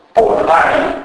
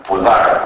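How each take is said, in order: First: Said in the usual way. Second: "ποδάρι" as pudar, final i lost; dropped final i. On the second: Shown as a demonstration. Lecturer showing final vowel loss, "ποδάρι" said pudar. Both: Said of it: "Η πτώση του τελικού ή".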